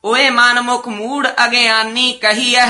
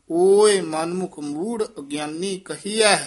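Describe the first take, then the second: First: ਓਏ said as a casual call; ਓਏ said like a shout of hey; wrong ਓਏ. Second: ਓਏ said slow and careful, as a scriptural word; slow, louder model of ਓਏ; corrected ਓਏ. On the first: Real, not acted. Student reciting, ਓਏ said wrongly. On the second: Shown as a demonstration. Teacher modelling the right ਓਏ for the student. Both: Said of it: "ਓਏ ਨਹੀਂ ਕਹਿਣਾ".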